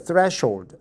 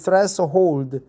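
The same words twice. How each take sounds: First: It is said the standard English way. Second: It is said the way Koreans pronounce it. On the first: The speaker calls it right. "but actually it's a threshold" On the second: The speaker calls it wrong. "Koreans pronounce it threshold"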